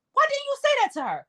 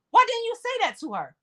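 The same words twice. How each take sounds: First: Much higher, disbelieving "why"; high exasperated repeat. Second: Raised, insistent why; pressing question. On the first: Repeating the question to the mother, exasperated high pitch. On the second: Asking the mother why she stayed silent, insistent. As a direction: demand an answer from her. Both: Real, not acted.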